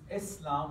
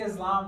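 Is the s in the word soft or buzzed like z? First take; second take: soft; z-like. First: The s is a soft, hissing s sound. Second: The s is a buzzing z sound. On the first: The speaker calls it right. "it's pronounced Islam with a soft S" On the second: The speaker calls it wrong. "If you say Islam, that's okay too"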